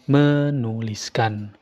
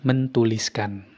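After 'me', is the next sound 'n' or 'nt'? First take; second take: n; nt. First: The t drops, leaving only n after me. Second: The t is kept, giving nt after me. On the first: The speaker calls it right. "penyebutannya berubah menjadi menuliskan" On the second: The speaker calls it wrong. "bukan mentuliskan"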